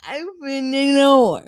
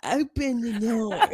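First: Loud, slow country drawl; country accent. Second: Put-on country accent. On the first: Retold or imitated. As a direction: say it like a Southern girl. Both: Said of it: "With her country accent".

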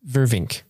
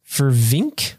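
First: Said in the usual way. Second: "Vervink" drawn out with a rising, questioning end; unsure pronunciation. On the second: Real, not acted. Host sounding out a patron's surname, "Vervink" rising as a question. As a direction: try "Vervink" as if asking.

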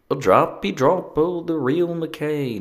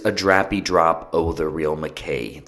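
First: High, slow, badly faked Scottish lilt; amateur Scottish accent, drawn out and high; terrible Scottish accent. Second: Said in the usual way. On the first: Shown as a demonstration. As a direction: try Scottish again with the pitch way up. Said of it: "What is Scottish?". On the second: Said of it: "That's without the really bad accent".

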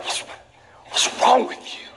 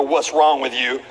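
First: High, slow breathy exasperation; mock exasperated parent. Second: Low, slow, weary reproach; mock disappointed God. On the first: Parent glaring at a kid who did something dumb, mock exasperation. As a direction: sigh it at the kid in disbelief. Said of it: "stop myself from looking at my kids and being like". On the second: God looking at you, lower and slower reproach. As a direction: drag it out like a let-down father. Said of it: "for God to look at you and go".

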